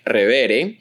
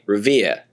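First: It is said with Spanish sounds and rhythm. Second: It is said with the final r dropped. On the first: "if you were to read that word using Spanish phonology, you would produce it something like Revere" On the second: "A lot of people in Boston don't ... they'd say Revere"

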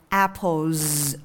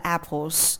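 First: The word ends with a buzzing z sound. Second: The word ends with a hissing s sound. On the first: The speaker calls it right. "âm z" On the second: The speaker calls it wrong. "chứ không phải là apples"

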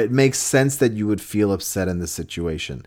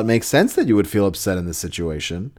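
First: It is said in a sincere, understanding tone. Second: It is said in a smirking, sarcastic tone. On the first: The feelings are genuinely accepted. The speaker calls it right. "acknowledge and accept your partner's feelings" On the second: The feelings are being mocked. The speaker calls it wrong. "You can say that line with a smirk on your face and it can become an insult"

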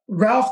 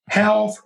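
First: It is said with an English R. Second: The R is said like an H.

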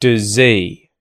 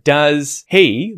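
First: The H is dropped and the vowel is schwa. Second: Both words are said fully with the H. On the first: "turn the sound in does into a schwa sound" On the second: "instead of does he"

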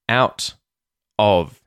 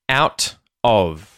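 No difference in how they are said.

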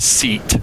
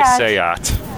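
First: It sounds like the English word seat. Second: It does not sound like the English word seat. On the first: The speaker calls it wrong. "You can tell somebody's not familiar with automotive brands if they pronounce Seat, seat" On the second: The speaker calls it right. "But you say Seat"

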